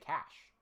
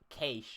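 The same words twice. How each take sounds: First: It is said as one syllable rhyming with 'mash'. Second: It is said as one syllable rhyming with 'hay'. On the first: This is the form used in America. "most people in America would just say cash" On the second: This is the form used in Australia. "like K A Y S H"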